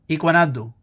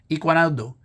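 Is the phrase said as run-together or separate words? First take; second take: run-together; run-together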